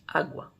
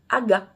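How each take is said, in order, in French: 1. Un son w suit le g. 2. Aucun son w ne suit le g.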